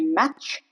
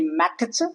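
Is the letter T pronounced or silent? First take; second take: silent; pronounced. First: The T is silent. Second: The T is pronounced. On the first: The speaker calls it right. "T remains silent" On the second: The speaker calls it wrong. "You don't say match"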